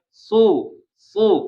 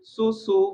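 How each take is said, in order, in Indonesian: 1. Bunyi s-nya tebal dan berat. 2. Bunyi s-nya tipis, dengan bibir ditarik. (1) "Su su kan tebal kan ya" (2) "Kalau tipis gimana ditarik"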